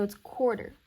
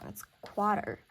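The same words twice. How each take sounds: First: Said in the usual way. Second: "quarter" said as "quater", no first r; misspelling read out. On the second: Shown as a demonstration. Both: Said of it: "I spelled quarter wrong".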